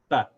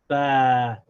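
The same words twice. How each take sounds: First: The vowel is said very short. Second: The vowel is held long. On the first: "very short" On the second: "and now it's a long vowel"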